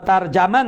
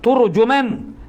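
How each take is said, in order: First: The first syllable has the vowel a. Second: The first syllable has the vowel u. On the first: "fathahkan mutanna bagi dua tar dan jim" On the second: "wa dhammihima"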